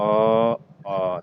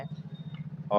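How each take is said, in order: First: Loud, voiced अ; loud vowel. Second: Unvoiced अ for contrast; whispered vowel. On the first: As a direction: call out अ loud and full. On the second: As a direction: breathe अ with no voice. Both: Shown as a demonstration. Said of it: "तो ये दोनों ज़्यादा होता है आ".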